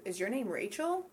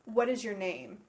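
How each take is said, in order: First: "Rachel" rising at the end. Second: "name" falling at the end. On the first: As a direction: lift "Rachel" as a yes-no question. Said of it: "as opposed to". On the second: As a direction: finish "What is your name?" downward. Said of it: "typically has a falling tone". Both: Shown as a demonstration.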